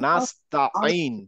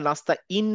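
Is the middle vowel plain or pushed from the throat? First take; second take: throat; plain. First: The middle vowel is pushed from the throat. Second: The middle vowel is a plain, soft vowel. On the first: The speaker calls it right. "আইন, একটু ধাক্কা দিব" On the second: The speaker calls it wrong. "আমরা নাস্তা ইন না বলে"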